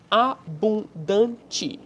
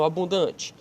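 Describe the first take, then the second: First: "abundante" very slowly, a-bun-dan-te in four parts; syllable by syllable. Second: Said in the usual way. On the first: Shown as a demonstration. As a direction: break "abundante" into four separate, drawn-out syllables. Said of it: "são quatro".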